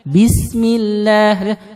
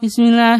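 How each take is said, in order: First: It is recited carefully, with every sound kept. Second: It is rushed, with sounds dropped. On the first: The speaker calls it right. "Harusnya kan" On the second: The speaker calls it wrong. "saking cepatnya"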